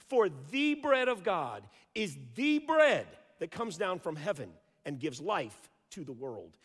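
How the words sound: The word 'the' is stressed.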